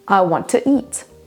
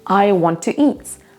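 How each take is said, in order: No difference in how they are said.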